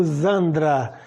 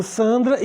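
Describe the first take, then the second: First: Zandra with a buzzing Z start; German S as Z. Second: Sandra with a hissed S start; as written. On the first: Teacher applying the German rule, S as Z. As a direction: say Zandra with voiced Z for the S. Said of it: "sempre vai ter som de Z". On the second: Teacher reading the spelling, S as written. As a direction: say Sandra with a voiceless S. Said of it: "Eu escrevo Sandra e digo Zandra". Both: Shown as a demonstration.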